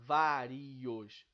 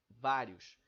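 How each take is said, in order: First: The last two vowels fall in separate syllables. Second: The last two vowels glide into one syllable. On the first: The speaker calls it wrong. "Eu não falo vários" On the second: The speaker calls it right. "eu falo vários"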